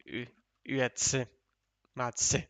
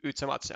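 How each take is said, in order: First: "Üetse, Matse" with a fronted, rounded Ü, broken into parts; German pronunciation. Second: "Utsematse" said with a plain U at the start; German-style pronunciation. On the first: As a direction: demonstrate "Üetse... Matse" piece by piece, German Ü first. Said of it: "German players pronounce it like". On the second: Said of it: "in German pronunciation". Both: Shown as a demonstration.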